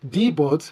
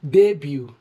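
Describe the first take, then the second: First: The final t sound is pronounced. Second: The final t sound is silent. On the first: The speaker calls it wrong. "the word is not pronounced as debut" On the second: The speaker calls it right. "should correctly be pronounced as debut... where the T is silent"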